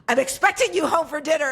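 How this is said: It is said in a heated, emphatic way.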